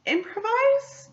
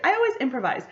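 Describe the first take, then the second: First: "improvise" as a tentative, high-pitched question. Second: Said in the usual way. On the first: Real, not acted. Unsure if it's the right word.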